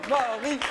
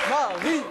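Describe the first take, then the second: No difference in how they are said.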